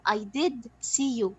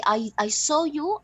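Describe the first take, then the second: First: "did" pressed slow and firm; slow insistent "did" in "I did see you"; stress on did. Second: Said in the usual way. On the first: Shown as a demonstration. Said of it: "to emphasize the fact that I did see you". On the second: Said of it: "Both of them are in the past".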